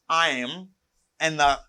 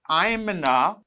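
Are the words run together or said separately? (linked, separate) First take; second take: separate; linked. First: Each word is said separately and in full. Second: The words are contracted and linked together. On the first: The speaker calls it wrong. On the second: The speaker calls it right.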